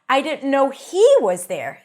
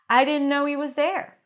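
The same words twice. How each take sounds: First: 'He' is stressed, with its h pronounced. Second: 'He' is unstressed, with its h dropped.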